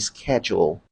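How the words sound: It is said with an American pronunciation. "the right pronunciation in American English"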